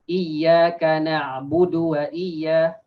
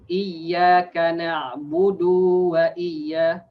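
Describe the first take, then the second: First: The final vowel of na'budu is short. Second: The final vowel of na'budu is drawn out. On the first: The speaker calls it right. "so it should be budu wa iyya" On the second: The speaker calls it wrong. "if you prolong the budu, that means you add a waw"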